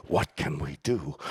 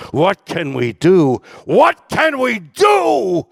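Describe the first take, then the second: First: Said in the usual way. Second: Slow, much louder, rising to a full shout; swelling from a loud plea to a high shouted cry; building lyric cry. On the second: Retold or imitated. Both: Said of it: "are the lyrics, "What can we do?".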